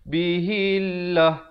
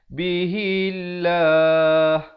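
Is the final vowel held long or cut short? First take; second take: cut short; held long. First: The final vowel is cut short abruptly. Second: The final vowel is held long before stopping. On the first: The speaker calls it wrong. "Jangan pula kita wakaf. ... itu tak kena" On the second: The speaker calls it right. "mestilah berhenti dengan sekurang-kurangnya dua harakat"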